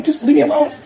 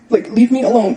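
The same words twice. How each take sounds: First: Just leave me alone, voice lifting high in real distress; pleading. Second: Said in the usual way. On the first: Real, not acted.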